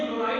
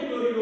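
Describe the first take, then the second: First: क्लोराइड said as klo-raid, ending in d; teacher says क्लोराइड as the plain anion name, klo-raid; say chloride. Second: क्लोरिडो said as klo-ri-do, ending in o; teacher says क्लोरिडो as the ligand name, klo-ri-do; say chlorido. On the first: Teacher to class, contrasting names: क्लोराइड as klo-raid. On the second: Teacher to class, contrasting names: क्लोरिडो as klo-ri-do. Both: Shown as a demonstration. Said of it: "ये समझना है".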